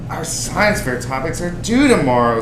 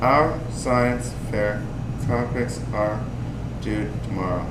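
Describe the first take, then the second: First: The sentence is read lively, with expression. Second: The sentence is read flat, without expression. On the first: The speaker calls it right. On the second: The speaker calls it wrong.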